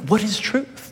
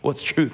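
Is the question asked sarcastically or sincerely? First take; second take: sincerely; sarcastically. First: The question sounds earnest and genuinely curious. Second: The question sounds mocking and dismissive. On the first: He really wants to know the answer. "was he sincerely asking, like" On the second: He thinks there is no such thing as truth. "Was he saying it, like, sarcastically"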